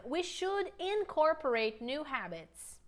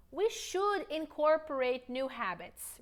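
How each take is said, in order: First: Slow, careful repeat; deliberate teacher pacing; slow model line. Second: Slow, clear model sentence; deliberate teacher pacing; slow model line. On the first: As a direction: say it again slowly for them. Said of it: "One more time". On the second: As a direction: model it slowly to repeat. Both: Shown as a demonstration.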